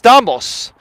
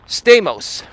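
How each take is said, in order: First: The name is said with Greek pronunciation. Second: The name is said with American pronunciation. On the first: This is the original form of the name. "So it's Stamos" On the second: This is the adapted form most people use. "we Americanize it like Stamos"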